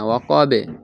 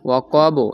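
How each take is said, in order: First: The b ends with a light, e-like bounce. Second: The b ends with a rounded, o-like bounce. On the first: The speaker calls it right. "এভাবে পড়তে হবে, নিম্নমুখী" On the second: The speaker calls it wrong. "ওয়াকবো এরকম না"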